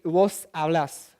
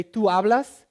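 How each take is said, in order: First: Hablas with the final -blas stressed, drawn out; stress on last syllable. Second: Said in the usual way. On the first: Shown as a demonstration. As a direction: lean on the LAS at the end of hablas. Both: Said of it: "the stress goes on the last syllable".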